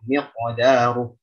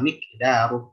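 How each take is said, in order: First: The word ends firmly without escaping breath. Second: The word ends with breathy escaping air. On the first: The speaker calls it right. "ketika waqaf miqdaruh" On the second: The speaker calls it wrong. "jangan miqdaruh. Jangan sampai hams"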